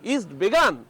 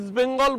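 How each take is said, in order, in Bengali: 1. দ্বিতীয় শব্দটি 'Begaan' বলা হয়, কোনো n ধ্বনি নেই। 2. দ্বিতীয় শব্দটি 'Bengal' বলা হয়, n ধ্বনি সহ। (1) "বলছেন ... ইস্ট বেগান" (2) "আমাদের প্রাণপ্রিয় ইস্টবেঙ্গল"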